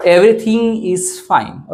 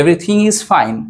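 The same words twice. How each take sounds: First: Slow, each word clear; slow dictation. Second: Said in the usual way. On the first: Shown as a demonstration. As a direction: say it slowly first for learners. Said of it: "कसं म्हणणार". (हळू, स्पष्ट उच्चार) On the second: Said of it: "okay".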